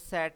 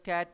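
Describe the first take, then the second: First: The word begins with an s sound. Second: The word begins with a k sound. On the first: The speaker calls it wrong. "सैट नहीं पढ़ना" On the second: The speaker calls it right. "कैट पढ़ना है"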